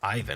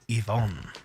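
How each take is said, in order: First: The name is said with an English pronunciation. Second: The name is said with a Russian pronunciation. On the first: The speaker calls it wrong. "I wouldn't call him Ivan" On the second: The speaker calls it right. "I would call him Ivan"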